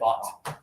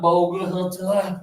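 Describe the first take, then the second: First: The silent letters are dropped. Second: Every written letter is sounded out. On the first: The speaker calls it right. "this is just bought" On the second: The speaker calls it wrong. "it's not bogut"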